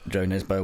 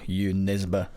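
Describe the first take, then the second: First: The first name begins with a J sound. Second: The first name begins with a Y sound. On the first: The speaker calls it wrong. "I mispronounced it for years too" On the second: The speaker calls it right. "the correct pronunciation"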